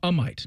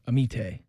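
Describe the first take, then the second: First: The name sounds like 'a might'. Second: The name sounds like 'a-meet'. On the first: The speaker calls it right. "is how you say it" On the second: The speaker calls it wrong.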